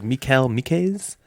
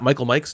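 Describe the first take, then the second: First: The first name sounds like 'Mee-kal'. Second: The first name sounds like English 'Michael'. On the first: The speaker calls it right. "it's like Mikal Mikes" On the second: The speaker calls it wrong. "it's not Michael Mikes"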